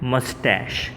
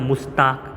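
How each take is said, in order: First: The word ends with an sh sound. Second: The word ends with a k sound. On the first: The speaker calls it right. "આનો સાચો ઉચ્ચાર છે મસ્ટેશ" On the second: The speaker calls it wrong. "ઉચ્ચાર તો બધા મુસ્તાક કે મુસ્ટેચ એવો કરતા હોય છે"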